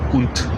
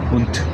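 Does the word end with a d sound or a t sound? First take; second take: t sound; t sound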